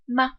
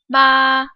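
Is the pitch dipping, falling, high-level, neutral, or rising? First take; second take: neutral; high-level. First: The syllable is light and unstressed. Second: The pitch stays high and level. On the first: "the fifth tone is unstressed and neutral" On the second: "The first tone is high-pitched and flat"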